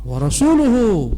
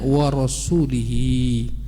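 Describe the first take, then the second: First: The last word ends with the sounds 'uhu'. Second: The last word ends with the sounds 'ihi'. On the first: His messenger also disowns the idolaters. The speaker calls it right. "tapi wa rasuluhu" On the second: God disowns His messenger too. The speaker calls it wrong. "dibacanya wa rasulihi"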